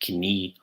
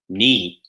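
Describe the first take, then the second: First: The initial K sound is pronounced. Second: The initial K sound is silent. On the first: The speaker calls it wrong. "So not knee" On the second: The speaker calls it right. "the K in the beginning of words will be silent"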